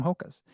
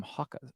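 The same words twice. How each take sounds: First: Said in the usual way. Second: Hokas said as "HAH-kuhz"; British pronunciation. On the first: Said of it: "I think he calls them". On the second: Retold or imitated. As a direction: open the first vowel of Hokas to "hah", imitating the British. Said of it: "other British people call 'em".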